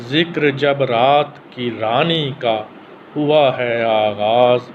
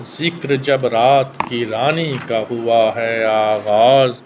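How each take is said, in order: Both takes have the same delivery.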